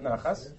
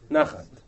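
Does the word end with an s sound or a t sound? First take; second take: s sound; t sound. First: The word ends with an s sound. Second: The word ends with a t sound. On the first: The speaker calls it wrong. "Not nachas" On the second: The speaker calls it right. "Nachat. Right?"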